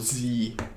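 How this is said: The letter is said the American way. "as they say in American English"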